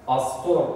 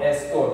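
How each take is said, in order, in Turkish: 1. Kelime açık a ünlüsüyle başlar. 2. Kelime ön e ünlüsüyle başlar. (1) "Astor diyen var" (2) "estor diyen var"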